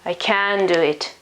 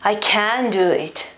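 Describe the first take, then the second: First: The modal verb 'can' carries the stress. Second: The modal verb 'can' carries the stress.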